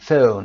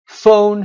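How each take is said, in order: First: The vowel is said in a British accent. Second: The vowel is said in an American accent. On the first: "در بریتیش این صدا رو او میخونیم" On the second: "صدای o، البته American"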